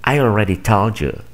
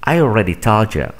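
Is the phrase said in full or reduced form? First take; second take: reduced; reduced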